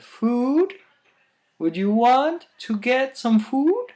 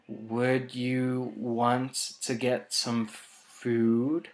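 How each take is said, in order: First: The pitch goes up, Indian-accent style. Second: The pitch stays level and low.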